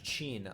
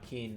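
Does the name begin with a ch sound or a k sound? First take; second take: ch sound; k sound. First: The name begins with a ch sound. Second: The name begins with a k sound. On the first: The speaker calls it right. "His name's actually Chin. It's pronounced Chin" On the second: The speaker calls it wrong. "I've been calling him Keen for a while"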